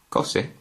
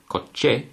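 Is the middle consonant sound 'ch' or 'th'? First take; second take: th; ch. First: The middle consonant is a soft 'th' sound. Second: The middle consonant is a 'ch' sound. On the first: The speaker calls it wrong. "rather than saying" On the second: The speaker calls it right. "we say coche, because the combination of C and H obviously will give us the sounding of ch"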